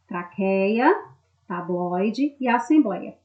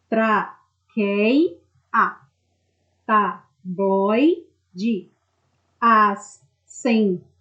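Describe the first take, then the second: First: Said in the usual way. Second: TRAQUEIA, TABLOIDE, ASSEMBLEIA broken into slow, separate syllables. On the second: Shown as a demonstration. Teacher separates syllables for students, traqueia, tabloide, assembleia said syllable by syllable. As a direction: split traqueia, tabloide, assembleia at each syllable, with clear pauses between. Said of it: "Quando vocês separam as sílabas dessas palavras".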